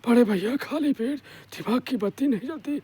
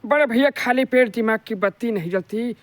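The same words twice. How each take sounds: First: The throaty character voice is quieter. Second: The throaty character voice is louder. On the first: "केवल किससे बोलना है, गले से बोलना है" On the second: "आपको थोड़ा वहीं से तेज आवाज निकालना है"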